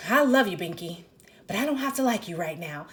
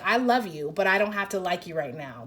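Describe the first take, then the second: First: A touch of irritation in "I love you, Binky"; woman to her boyfriend, fond but a little annoyed; mildly irritated. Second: Said in the usual way. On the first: Retold or imitated. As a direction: say it with slight annoyance, still fond. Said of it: "kinda irritated and she's like". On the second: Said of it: "it's the energy of, like".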